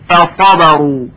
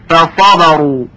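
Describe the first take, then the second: No difference in how they are said.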